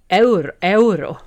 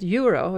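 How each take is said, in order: First: It is said with a Spanish pronunciation. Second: It is said with an English pronunciation. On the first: "På spanska säger man euro" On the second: "det engelska namnet euro"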